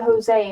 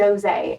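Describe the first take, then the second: First: Jose said ho-ZAY, with an H; Spanish-style Jose. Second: Jose said joe-ZAY, with a J; English-style Jose. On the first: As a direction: open Jose with a breathy H sound. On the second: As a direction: start Jose like the word Joe. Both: Retold or imitated. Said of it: "She was like, "Stop acting like a Jose".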